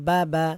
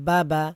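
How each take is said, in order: Both takes have the same delivery.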